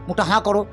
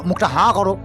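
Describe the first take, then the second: No difference in how they are said.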